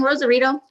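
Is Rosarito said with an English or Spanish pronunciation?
English. It is said with an English-style pronunciation. The speaker calls it wrong.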